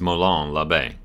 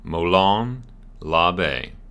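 First: It is said at normal speed. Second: It is said slowly.

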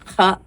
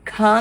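First: The consonant is a rough friction from the throat. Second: The consonant is a plain aspirated k-sound. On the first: The speaker calls it right. "ഇവിടുന്ന് ഇങ്ങനെ ഈ തൊണ്ടയിൽ നിന്ന് കിട്ടണം നമുക്ക് ആ sound" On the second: The speaker calls it wrong. "ഖ എന്നല്ല"

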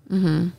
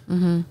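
The two takes are said the same way.

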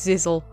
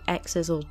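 First: The name begins with a 'z' sound. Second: The name begins with an 'eks' sound. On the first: The speaker calls it right. "It is Zizzle" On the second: The speaker calls it wrong. "don't say X-Izzle"

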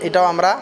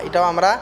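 Both takes have the same delivery.

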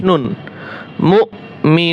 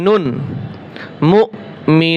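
Both takes have the same delivery.

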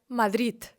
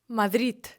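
First: The word ends with a d sound. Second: The word ends with a d sound.

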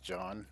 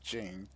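First: The name is said with an open 'ah' vowel. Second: The name is said with an English 'ee' vowel. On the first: The speaker calls it right. "I think it's pronounced John" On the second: The speaker calls it wrong. "I don't think it's Gene, as it spelled in English"

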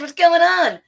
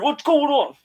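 First: It is a fun, playful Mikey voice. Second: It is a deep Brooklyn-accented Raph voice.

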